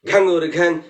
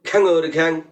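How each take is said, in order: No difference in how they are said.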